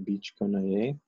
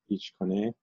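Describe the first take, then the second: First: It is said slowly and fully. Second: It is said quickly and reduced.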